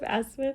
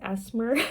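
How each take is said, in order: First: It is said in the speaker's usual accent. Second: It is said in an imitated foreign accent. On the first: "instead of asthma" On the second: "I love his accent, the way he says asthma"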